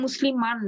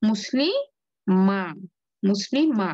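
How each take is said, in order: First: মুসলিমান closing on a clear n; full noon ending. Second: মুসলিমা ending on an open "maa", no n; noon dropped. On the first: Teacher recalls the form already read, noon pronounced. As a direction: say মুসলিমান with "-maan" fully sounded. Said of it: "আমরা যে পড়ে আসছি". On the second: Teacher shows what remains without noon, open ending. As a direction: break মুসলিমা slowly into "muslii... maa". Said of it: "নুন যদি উচ্চারণ না করি". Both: Shown as a demonstration.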